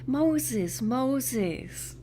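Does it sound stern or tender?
tender. It is said as a tender call.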